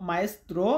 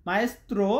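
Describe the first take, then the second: The two takes are said the same way.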